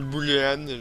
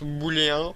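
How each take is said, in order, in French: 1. Le mot se prononce à l'anglaise. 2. Le mot se prononce à la française standard. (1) "moi Euh, je l'appelle Boolean" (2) "ça se prononce booléen"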